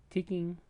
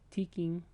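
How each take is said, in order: Both takes have the same delivery.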